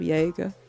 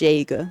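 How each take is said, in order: First: The word begins without a J sound. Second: The word begins with a J sound. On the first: "instead of" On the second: "you pronounce the, the J"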